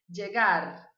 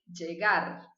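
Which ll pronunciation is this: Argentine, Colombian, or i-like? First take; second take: Colombian; Colombian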